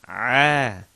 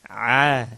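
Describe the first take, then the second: The two takes are said the same way.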